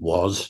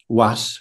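First: It is said with a modern English pronunciation. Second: It is said with an Old English pronunciation. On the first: "was now, but very close" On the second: "That is exactly the same today as it was then"

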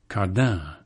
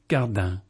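First: The stress is on the second syllable. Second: The stress is on the first syllable. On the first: This is how English speakers say it. "We Anglos must obviously think the iambic rhythm sexier" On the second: This is how English speakers do not say it.

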